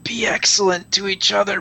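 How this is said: It is said in a stoner character voice.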